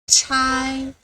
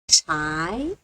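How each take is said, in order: First: The pitch stays high and level. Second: The pitch rises from middle to high.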